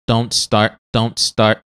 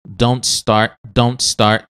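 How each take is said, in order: The two takes are said the same way.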